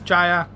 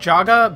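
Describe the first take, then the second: First: The last syllable starts with a y sound. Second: The last syllable starts with a hard g. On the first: The speaker calls it right. "It's not. It's Jaya" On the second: The speaker calls it wrong. "I keep saying Jaga because I keep being an idiot"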